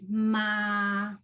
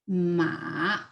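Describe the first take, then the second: First: The pitch stays high and level. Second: The pitch dips low and then rises. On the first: "the first one is ma" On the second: "Now let's try with the third tone"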